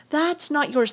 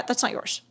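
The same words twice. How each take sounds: First: Said in the usual way. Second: Murmured aside. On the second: Shown as a demonstration.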